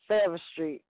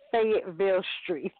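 First: The name is squeezed into two short syllables. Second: The name is said with all its syllables. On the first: This is how locals say it. The speaker calls it wrong. "that's how we say it. Say it again. How we saying it?" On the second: This is the official form of the name. The speaker calls it right. "And what it's supposed to be, though?"

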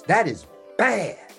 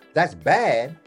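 First: It is said with a strong, emphatic tone. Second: It is said in a plain, even tone.

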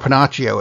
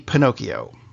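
First: The middle consonant is a 'ch' sound. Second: The middle consonant is a 'k' sound.

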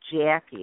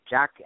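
First: The A is said with a Midwestern vowel. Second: The A is said without the Midwestern vowel. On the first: This is how people in the Midwest say it. "that's the way we say it in the Midwest" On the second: This is how people elsewhere say it. "I know other people say Jackie"

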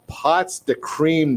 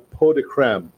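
First: It is read with an English-style pronunciation. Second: It is said with a French-style pronunciation. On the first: The speaker calls it wrong. "I probably said this wrong" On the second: The speaker calls it right. "being that it's from France, I'm definitely saying it wrong. It's probably pot de crème"

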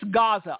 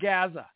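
First: It is said with the standard pronunciation. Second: It is said the way Southern politicians say it. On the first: The speaker calls it right. "it's Gaza" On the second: The speaker calls it wrong. "It's not Gaza"

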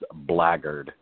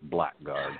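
First: It is said as one blended word. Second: It is said as two separate words. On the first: The speaker calls it right. "All one word is pronounced blackguard" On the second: The speaker calls it wrong. "It's not blackguard"

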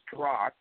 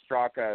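First: The name ends without a final vowel sound. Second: The name ends with a final vowel sound. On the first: This is how the speaker's own family says the name. "So the last A is silent. It's actually pronounced Strock" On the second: This is how everyone outside the family says the name. "it's pronounced Straka if you're anybody else in the entire world"

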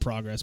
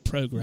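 First: It is said in an American accent. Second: It is said in a British accent.

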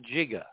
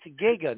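First: The word starts with a soft j sound. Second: The word starts with a hard g sound. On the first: The speaker calls it wrong. "not Jigga" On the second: The speaker calls it right. "It's Giga"

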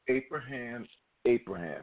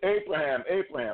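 First: It is said at a normal, softer volume. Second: It is said loudly, like a shout.

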